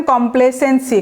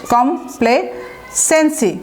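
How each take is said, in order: First: Said in the usual way. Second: কমপ্লেসেন্সি slowly, in separate pieces com, play, sency; slow chunk-by-chunk demo of কমপ্লেসেন্সি with pauses; broken into syllables. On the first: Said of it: "উচ্চারণটা দেখেন". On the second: Shown as a demonstration. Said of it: "ভেঙে ভেঙে উচ্চারণ করলেই পারবেন".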